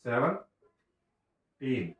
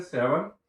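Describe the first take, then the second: First: सेवनटीन stretched out very slowly, each sound drawn long; slow pronunciation demo. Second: Said in the usual way. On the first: Shown as a demonstration. Teacher showing kids how to say सेवनटीन, drawn out very slowly. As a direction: spell out सेवनटीन slowly for the children. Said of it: "जिसको हम लोग पढ़ते हैं". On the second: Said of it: "जिसको पढ़ते हैं हम कैसे".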